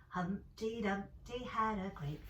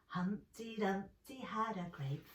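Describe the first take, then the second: The two takes are said the same way.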